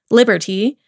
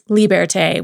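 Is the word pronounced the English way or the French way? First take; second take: English; French. First: The word is said with English pronunciation. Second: The word is said with French pronunciation.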